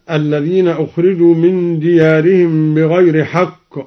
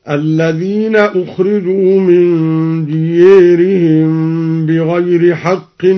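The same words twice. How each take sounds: First: Said in the usual way. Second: Chanted, ديارهم drawn out as "diyērihim"; recitation with imala. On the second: Shown as a demonstration. Teacher demonstrating al-Duri's reading, chant with "diyērihim" for ديارهم. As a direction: chant with the long a of ديارهم tilted to "ē". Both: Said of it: "قرأ الدوري بالإمالة".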